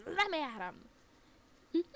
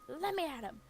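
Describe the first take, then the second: First: Very loud, higher and slow, stretched out; hammed-up howling fury; drawn-out mock rage. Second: Loud, higher quick cry; hammed-up fury; mock outraged dog. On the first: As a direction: bellow it as if held back by a harness. Dog's repeated outburst. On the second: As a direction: strain to get at the deer. Dog lunging at deer.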